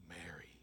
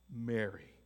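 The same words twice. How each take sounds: First: Whispered name. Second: "Mary" spoken softly with a falling tune; tender name. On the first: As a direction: whisper "Mary" barely voiced, soft and slow. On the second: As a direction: say "Mary" with quiet emotion. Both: Acted. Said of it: "saying it with passion, with emotion".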